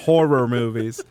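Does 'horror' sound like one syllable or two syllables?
two syllables. Horror is said clearly with two syllables. This is the standard way the word is said. "instead of horror movies"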